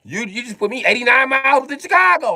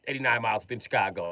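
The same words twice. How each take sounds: First: High, loud comic alarm at the distance; outraged protest. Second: Softer, quick grumble in normal pitch; subdued repeat. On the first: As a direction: protest with the voice shot right up. Outraged reaction, repeated lower after. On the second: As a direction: drop the outrage and say it fast, under the rant. Drops to softer repeat of complaint. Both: Acted.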